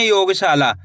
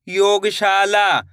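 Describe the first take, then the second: First: Said in the usual way. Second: "योगशाला" stretched very slowly, every syllable drawn out; slow blended word. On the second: Shown as a demonstration. Teacher blending the word again for pupils, drawn out very slowly. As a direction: pull the word apart as you blend it. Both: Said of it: "कैसे पढ़ेंगे?".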